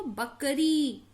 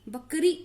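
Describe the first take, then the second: First: "बकरी" with a held final ee; long vowel. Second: "बकरी" with a short, cut-off final i; wrong short vowel. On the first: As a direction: draw out the last vowel of "बकरी". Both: Shown as a demonstration. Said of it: "ऐसे नहीं पढ़ते इसको".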